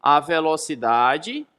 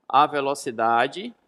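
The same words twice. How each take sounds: The two takes are said the same way.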